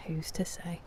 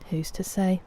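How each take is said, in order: First: Much softer, almost to herself; hushed repeat. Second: Said in the usual way. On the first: Shown as a demonstration. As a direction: drop it to a murmur. Repeats the question, second time hushed.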